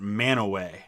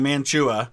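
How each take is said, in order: First: The name is said like 'Manaway'. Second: The name is said close to its spelling.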